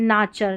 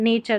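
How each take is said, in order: First: The first vowel sounds like 'ah'. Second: The first vowel sounds like 'ay'. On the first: The speaker calls it wrong. "आप ना भी बोल सकते हैं, नाचर। नाचर क्या होता है?" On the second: The speaker calls it right. "नेचर सही है ना उच्चारण"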